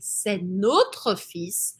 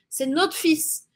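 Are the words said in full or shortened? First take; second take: full; shortened. First: The words are said in full. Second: The words are shortened and run together. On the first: "Ao invés de dizer c'est notre fils" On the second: "ela está fazendo esse sistema de encurtar as palavras"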